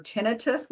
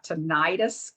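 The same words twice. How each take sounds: First: Tinnitus said TIN-ih-tus; first-syllable stress. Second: Tinnitus said tih-NIGH-tus; second-syllable stress. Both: Shown as a demonstration. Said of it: "whichever way you wanna say it".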